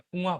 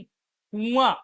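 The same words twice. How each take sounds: First: The first vowel is a short u. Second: The first vowel is a long u. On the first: The speaker calls it right. "कुआं होता है, छोटा मात्रा" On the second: The speaker calls it wrong. "कुआं नहीं होता"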